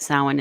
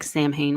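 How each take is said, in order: First: The word is said the way people usually say it. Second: The word is read out the way it's spelled. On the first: "Samhain is how I often hear it" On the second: "it looks like Samhain when you see it written"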